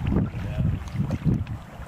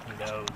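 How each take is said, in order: First: Hushed, breathy repeat; eerie whisper. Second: Said in the usual way. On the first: Shown as a demonstration. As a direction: whisper it like a spooky echo.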